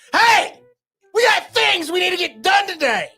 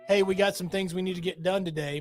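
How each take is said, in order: First: It is yelled in a loud voice. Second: It is said in a calm, normal voice.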